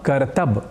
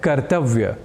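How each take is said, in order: First: The word ends with a 'b' sound. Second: The word ends with a 'vya' sound. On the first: The speaker calls it wrong. "ऐसा प्रयोग हम हिंदी या अन्य प्रादेशिक भाषाओं में कर दिया करते हैं" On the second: The speaker calls it right. "एक शब्द है कर्तव्य"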